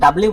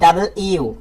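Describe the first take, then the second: First: The parts are squeezed together into fewer syllables. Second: Both parts, double and you, are said fully. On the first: The speaker calls it wrong. "এটা কিন্তু ডাব্লিউ বলে আমরা" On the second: The speaker calls it right. "ডাবল ইউ মানে দুইটা ইউ একসাথে রয়েছে"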